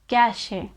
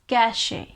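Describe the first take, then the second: The two takes are said the same way.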